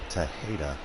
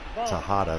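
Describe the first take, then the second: First: The middle vowel sounds like 'eh'. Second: The middle vowel sounds like 'ah'. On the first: The speaker calls it right. "It is Anderson Tejeda" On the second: The speaker calls it wrong. "not Tejada"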